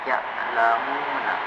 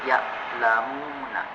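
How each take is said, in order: No difference in how they are said.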